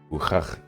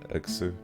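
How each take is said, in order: First: The name is said with Russian pronunciation. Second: The name is said with English pronunciation. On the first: "more like Cyrillic pronunciation" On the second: "the way I'm doing it in English"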